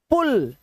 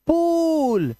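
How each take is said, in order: First: पुल with a quick short u; short vowel. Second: पूल with a long drawn-out oo; long vowel. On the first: Teacher giving the short-vowel example, पुल said short. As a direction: keep the u in पुल brief. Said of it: "short vowel sound". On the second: Teacher giving the long-vowel example, पूल held long. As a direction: stretch the oo in पूल. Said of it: "long vowel sound". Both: Shown as a demonstration.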